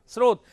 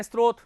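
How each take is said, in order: First: स्रोत said as srot, s straight into r with no t; correct pronunciation. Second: स्रोत said as strot, with an extra t after s; the everyday strot slip in स्रोत; common wrong pronunciation. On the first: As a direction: clean s-r start on स्रोत. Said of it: "इसका विशुद्ध उच्चारण क्या होगा". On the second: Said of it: "लेकिन हम इसको क्या बोलते हैं". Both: Shown as a demonstration.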